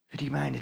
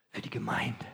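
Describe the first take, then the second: First: Said in the usual way. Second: Soft confiding whisper; preacher whispers the answer to his own question. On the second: Acted. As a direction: let the answer out as a secret.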